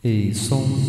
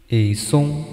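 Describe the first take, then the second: First: The voice has repeating echoes plus reverb. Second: The voice has repeating echoes without reverb. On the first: "a gente pode pegar um delay reverb para ver como é que fica" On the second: "o delay"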